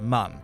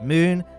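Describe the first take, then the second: First: The vowel is a short 'u' sound. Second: The vowel is a long 'oo' sound. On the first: The speaker calls it right. "some people pronounce it mun" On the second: The speaker calls it wrong. "Some people pronounce it moon"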